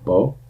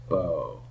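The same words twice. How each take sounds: First: The vowel is held briefly and lightly. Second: The vowel is held longer and fuller. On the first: "Hold it shorter"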